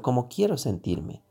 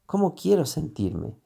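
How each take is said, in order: First: ¿Cómo quiero sentirme? said with the tune falling on quiero; falling question. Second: ¿Cómo quiero sentirme? said with the tune rising on quiero; rising tune on quiero, a genuine question. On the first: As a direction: ask it flat and closed, dropping at quiero. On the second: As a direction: ask it open and searching, lifting on quiero. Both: Shown as a demonstration.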